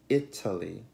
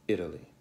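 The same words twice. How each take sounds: First: The middle consonant is a crisp, unvoiced T. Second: The middle consonant is a voiced T like D. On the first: The speaker calls it wrong. "Non è Italy" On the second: The speaker calls it right. "ma Italy"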